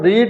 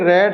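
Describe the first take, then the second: First: The vowel is a long ee sound. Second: The vowel is a short e sound. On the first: It is the present form of the verb. "इसको रीड पढ़ेंगे तो रीड" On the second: It is the past form of the verb. "हम रीड को third form या second form में रेड पढ़ सकते हैं"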